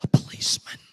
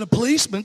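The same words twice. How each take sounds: First: Put-on little boy's secretive whisper. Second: Caller's puzzled, voiced echo; mild surprise. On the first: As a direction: whisper it into the phone. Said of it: "came back on the phone whispering". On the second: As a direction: repeat it back, a touch taken aback. Caller startled by boy's answer.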